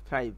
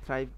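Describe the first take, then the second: The two takes are said the same way.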